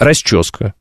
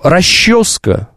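First: It is said with the Saint Petersburg pronunciation. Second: It is said with the old Moscow pronunciation. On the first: "по-питерски" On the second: "по московским нормам старым"

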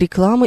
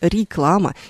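First: The first vowel is short and reduced. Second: The first vowel is a clear, full 'i'. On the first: The speaker calls it right. "Вы говорите «реклама» и «премьера». Это первый предударный слог" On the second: The speaker calls it wrong. "не реклама и не премьера. Обратите внимание, вы так не говорите"

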